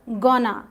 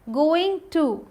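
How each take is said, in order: First: The words are blended into one short word. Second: Both words are said fully and separately. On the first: "गोना होता है" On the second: "गोइंग टू का contraction"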